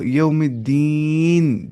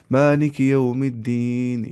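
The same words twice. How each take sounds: First: यौमिद्दीन slowed, the final nun made silent, then a full breath break; stop on a silent nun. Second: मालिक यौमिद्दीन run on, the nun made silent but no breath taken; wrong stop without breath break. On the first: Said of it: "को साकिन करके सांस तोड़ दो". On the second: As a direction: show the wrong way: no pause after यौमिद्दीन. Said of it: "लेकिन साने सांस तोड़ी नहीं". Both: Shown as a demonstration.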